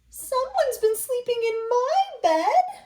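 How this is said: It is said in a tiny, small voice.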